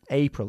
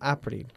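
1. La palabra empieza con el sonido vocálico 'ay'. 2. La palabra empieza con el sonido vocálico 'ah' simple. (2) "no April"

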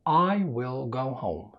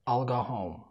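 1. تُنطق الجملة ببطء وبعناية. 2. تُنطق الجملة بسرعة وعجلة. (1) "هنبدأ بالسرعة الهادية في الكلام" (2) "وبعد كده المستعجل"

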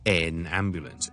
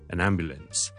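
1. 单词 'an' 读完整元音。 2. 单词 'an' 读得弱而轻。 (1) "咁咧就系怪怪地嘅" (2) "其实咧系就咁好弱、好轻嘅followed by an N sound"

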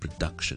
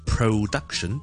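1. 第一个音节轻，读得弱化。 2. 第一个音节饱满，没有弱化。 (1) "我只会轻读成咧production" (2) "我哋就唔会读成production"

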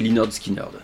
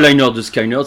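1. Le deuxième mot commence comme 'skin'. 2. Le deuxième mot commence comme 'sky'. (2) "on dit pas"

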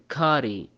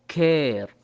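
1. الحرف هو a مفتوحة مع نهاية ee. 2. الصوت يُنطق مثل الموجود في air. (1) "ما نقول كاري او كار، خطأ" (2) "كلمة كير"

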